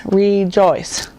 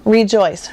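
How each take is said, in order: First: Rejoice split into RE-JOICE; syllable by syllable. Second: Said in the usual way. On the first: Shown as a demonstration. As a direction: sound out rejoice in two drawn beats. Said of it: "my chin goes up three times". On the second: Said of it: "three syllables".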